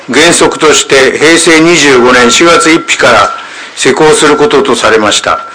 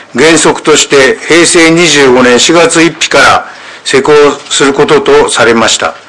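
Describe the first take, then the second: The two takes are said the same way.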